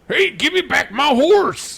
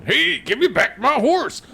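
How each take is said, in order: First: High, loud, slow hollering cowboy; cowboy yell. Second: High, loud cowboy holler through a laugh; laughing cowboy yell. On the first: Imitating a Red Dead voice actor, loud high cowboy yell. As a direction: holler like an angry cowpoke. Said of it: "that guy in Red Dead Redemption that's like". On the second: Mocking the striking voice actor with a laughing cowboy holler. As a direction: yell it again while cracking up. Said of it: "that guy's not gonna be going". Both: Retold or imitated.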